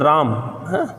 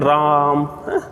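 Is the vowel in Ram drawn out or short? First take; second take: short; drawn out. First: The vowel in Ram is of normal length. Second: The vowel in Ram is drawn out long. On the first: "जैसे राम है" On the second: "ज्यादा समय तक अगर आप बोलना चाहें तो उसमें प्लुत स्वर लगा देते हैं"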